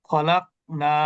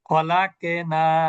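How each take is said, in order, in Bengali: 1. q সাউন্ডটা সাধারণ, কোনো কলকলা নেই। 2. q সাউন্ডের পরে একটা পূর্ণ স্বরধ্বনি যোগ করা হয়। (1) "এটা হচ্ছে কলকলা না করে পড়া।" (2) "এভাবে বলা যাবে না।"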